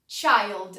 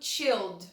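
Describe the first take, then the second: First: The vowel is a long 'eye' sound. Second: The vowel is a short 'ih' sound. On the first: The speaker calls it right. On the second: The speaker calls it wrong.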